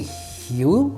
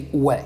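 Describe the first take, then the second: First: The word starts with an h sound. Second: The word starts without an h sound. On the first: It is read as an English word. "If it's English, I guess you would say Hugh" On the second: It is read as a Spanish word. "If it's Spanish, you would just say hue because the H has no sound"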